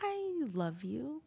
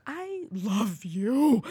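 First: I love you stretched very slow; slow drawn-out. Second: I love you dragged out, word by word; extremely slow. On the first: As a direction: draw out each word of I love you. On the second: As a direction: let each word of I love you hang. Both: Shown as a demonstration. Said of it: "you can say a sentence a hundred ways".

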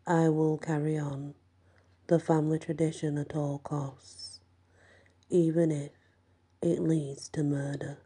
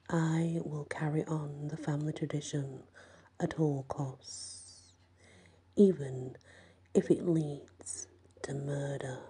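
First: Flat, entranced monotone repeat. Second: Slow whispered ritual oath; slow hushed oath. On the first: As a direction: repeat it like a sleepwalker, without feeling. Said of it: "in a monotone voice". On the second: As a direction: murmur the vow slowly, like a spell. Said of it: "Henry leads the oath to Darren". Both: A narrator's reading.

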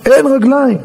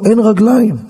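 First: Higher, insistent repeat; emphatic alarm. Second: Said in the usual way. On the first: Retold or imitated. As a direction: drive it home with raised pitch. (בדחיפות ובבהלה)

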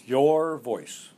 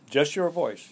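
First: YOUR drawn out and louder; stress on YOUR. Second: Said in the usual way. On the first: Real, not acted. Coach repeating his answer to the interviewer, stress on Your. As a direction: lean hard on the word Your.

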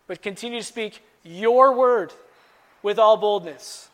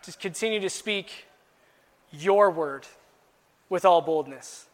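First: Your word and all boldness pushed up, louder and slow; louder emphasis. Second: Each phrase set apart with pauses; slow emphasis. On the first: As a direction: drive home with all boldness. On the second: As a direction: lean on your word and all boldness. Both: Shown as a demonstration. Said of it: "Now, I wanna emphasize".

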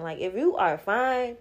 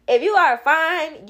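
First: Said in the usual way. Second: "If you are fine" said higher, louder and slow, each word weighted; emphatic repeat. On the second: Shown as a demonstration. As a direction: lean hard into "If you are fine", drawn out.

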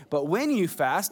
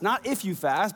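First: "when" leaned on with a rising lift; stress on when. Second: "if" leaned on with a rising lift; stress on if. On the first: Pastor to congregation, stressing "when" with a rise. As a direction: push the word "when" with a rise. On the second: Pastor to congregation, stressing "if" with a rise. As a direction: push the word "if" with a rise. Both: Shown as a demonstration.

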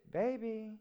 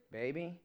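First: Put-on "baby" dropped soft and quiet; soft tender "baby" in the inflection demo. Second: Put-on "baby" low and soft with a questioning rise; soft low rising "baby" in the demo; quiet rising baby. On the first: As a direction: breathe "baby" gently, tender. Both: Shown as a demonstration. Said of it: "they all mean something different".

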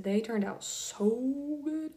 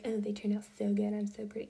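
First: Slow, amazed and delighted; genuinely amazed at the photos; pleasantly surprised. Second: Imitating a vain girl, ending in whisper; mock self-admiring brag. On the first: Real, not acted. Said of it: "I was pretty surprised". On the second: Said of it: "not to be like".

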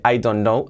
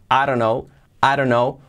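First: "I don't know" as "ai don nou", D sounded; full careful form. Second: "I don't know" as "a-ro-nou"; reduced linked form. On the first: Teacher showing the form it changes from, full "I don't know". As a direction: keep the full "ai" and the D. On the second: Teacher showing the changed form, "a-ro-nou" for "I don't know". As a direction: shrink I to "a" and tap the D like R. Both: Shown as a demonstration. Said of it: "Fijaos cómo cambia de".

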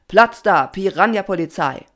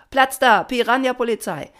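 First: Loud, commanding motto; rallying call. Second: High, loud chanted reply; answering chorus. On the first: Papa gives the swarm its motto, loud commanding call. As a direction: call it out as the leader. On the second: The swarm answers Papa's motto, high shouted reply. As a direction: shout back like an eager crowd. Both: A narrator's reading. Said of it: "Alle antworteten".

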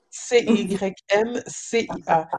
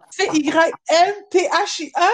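First: Said in the usual way. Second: "C Y N T H I A" spelled higher and louder, leaning on the T H; emphatic spelling. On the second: Shown as a demonstration. Correcting someone on her name, spelling it higher and louder. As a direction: push up and hit the T H in "C Y N T H I A". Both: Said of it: "je suis comme, C Y N C I A".

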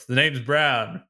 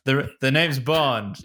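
First: A hint of suave spy voice; lightly voiced Bond catchphrase; James Bond line. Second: Slow suave spy line, lightly voiced; mild Bond impression; corrected Bond line. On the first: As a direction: deliver it like a smooth secret agent. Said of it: "Bond, James Bond". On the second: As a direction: say the catchphrase properly, slow and cool. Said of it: "I said it the wrong way around".

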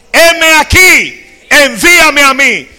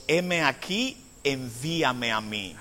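First: "Heme aquí" cried out very loud and high, drawn out slowly; "envíame a mí" belted high and loud from the pulpit; proclaimed. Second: "Heme aquí" said low and soft, "envíame a mí" sinking to a hush; "envíame a mí" said softly and slowly, low; quiet. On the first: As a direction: shout "Heme aquí, envíame a mí" as a soaring declaration. Isaiah's answer, preached climax. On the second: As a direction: murmur "Heme aquí, envíame a mí" as a humble offering. Same words, quiet retelling. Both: Acted.

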